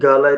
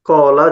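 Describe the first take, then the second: First: The word begins with a hard g sound. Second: The word begins with a deep throat q sound. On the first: The speaker calls it wrong. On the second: The speaker calls it right.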